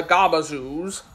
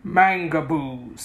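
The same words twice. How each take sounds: First: Gabazoos said confidently as the Wizard's wrong name. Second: Mangaboos said slowly and pointedly, each syllable set apart; correcting the name. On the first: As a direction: breeze through Gabazoos as if it were right. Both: A narrator's reading. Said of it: "correcting him".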